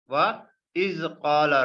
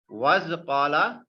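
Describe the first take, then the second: First: A glottal stop separates wa from the next word. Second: Wa runs into the next word without a glottal stop. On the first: The speaker calls it right. "This is Hamza Qatai" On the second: The speaker calls it wrong. "We cannot pronounce like this"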